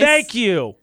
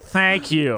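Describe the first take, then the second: First: It is said in an angry, clipped voice. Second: It is said in a nasal, put-on voice. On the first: "I said it angrily because I'm upset with you" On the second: "Stop with your nose talking"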